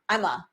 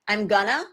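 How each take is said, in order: First: The words blend into a very short form. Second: The words blend together into a shortened form. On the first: "or I, even I'm a" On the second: "in connected speech is going to be I'm gonna"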